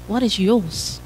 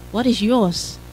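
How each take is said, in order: Both takes have the same delivery.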